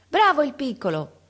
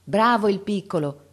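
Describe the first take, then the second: First: Grido acuto e forte di incoraggiamento; grido dalla finestra. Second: Lode calda. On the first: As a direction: chiama da lontano, tutta entusiasta. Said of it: "Una donna gridò dalla finestra". (una donna grida dalla finestra per incitare il ragazzo) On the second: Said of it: "dicevano intorno". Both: A narrator's reading.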